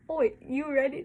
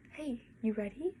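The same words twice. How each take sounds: First: Loud, high Oi, you ready cockney shout; hammed-up cockney. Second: Said in the usual way. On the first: Shown as a demonstration. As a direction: belt Oi, you ready like a rowdy Londoner. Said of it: "No, just kidding". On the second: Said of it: "that was definitely English lines".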